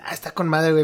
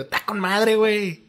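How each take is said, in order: First: Said in the usual way. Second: Higher, lilting norteño sing-song; northern Mexican accent. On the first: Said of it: "en el centro del país". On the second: Shown as a demonstration. Host contrasts central usage with the northern version, norteño accent. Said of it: "tiene que ser como el acentito".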